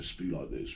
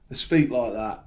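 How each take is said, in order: First: Low, very soft mock-posh accent; quiet put-on posh British accent. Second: Said in the usual way. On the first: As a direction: imitate posh speech under your breath. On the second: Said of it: "they don't like the Birmingham accent".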